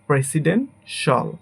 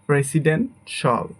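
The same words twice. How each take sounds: No difference in how they are said.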